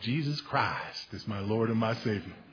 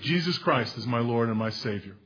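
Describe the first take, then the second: First: It is said in a slow Texas drawl. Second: It is said in a plain, neutral accent.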